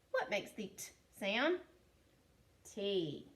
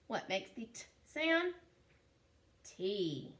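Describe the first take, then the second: No difference in how they are said.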